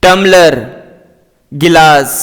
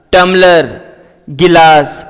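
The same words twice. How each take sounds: The two takes are said the same way.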